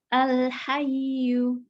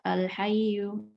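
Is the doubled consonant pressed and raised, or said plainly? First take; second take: pressed, raised; plain. First: The doubled consonant is pressed and slightly higher. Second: The doubled consonant is said plainly, without extra stress. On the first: The speaker calls it right. "harusnya dinaber. ... jadi agak tinggi dikit" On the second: The speaker calls it wrong. "cuma dibaca al-hayyu, nah itu bukan"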